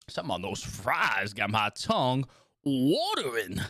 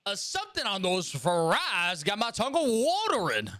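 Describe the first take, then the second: First: Southern twang. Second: Higher, slow Southern drawl; slow Southern twang, pitched up. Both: Shown as a demonstration. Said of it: "brings out a little bit of the, the twang".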